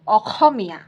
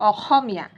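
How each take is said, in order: First: The consonant after the first vowel is a rough kh. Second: The same.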